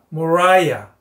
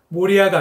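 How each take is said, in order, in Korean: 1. 가운데 모음은 'eye'처럼 소리 납니다. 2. 가운데 모음은 'ee'처럼 소리 납니다.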